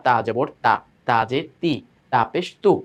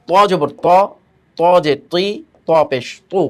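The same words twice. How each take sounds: First: "তা জবর তা" with a thin, light তা. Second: "ত জবর ত" with a thick, heavy ত; heavy emphatic ta. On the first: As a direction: keep "তা" slim and light. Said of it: "এরকম চিকন পাতলা". ("তা" চিকন পাতলা আওয়াজে) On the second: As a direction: make "ত" sound full and thick. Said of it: "আওয়াজটা এখানে আমি মোটা করলাম". ("ত" মোটা আওয়াজে) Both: Shown as a demonstration.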